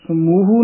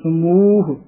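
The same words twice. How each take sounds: First: ਸਮੂਹ said as "samuhu"; long U after H. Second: ਸਮੂਹ as "samooh", ending on H; long U on M. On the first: Teacher shows the mistake, ਸਮੂਹ ending in "hu". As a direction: add an U vowel after the H in ਸਮੂਹ. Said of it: "ਹਾਹੇ ਦੇ ਦਲੈਂਕੜ ਲਾ ਕੇ". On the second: Teacher shows correct reading, long U in ਸਮੂਹ. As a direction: stretch the U after M in ਸਮੂਹ. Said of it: "ਮੰਮੇ ਦੇ ਦਲੈਂਕੜ ਹਨ". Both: Shown as a demonstration.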